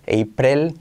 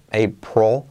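First: A clear E vowel precedes the final L. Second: A clear O vowel precedes the final L. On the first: "Si intentas poner una E" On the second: "no suena tampoco una O"

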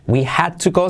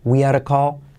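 First: Each word is said separately and clearly. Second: The words run together, D as a soft R.

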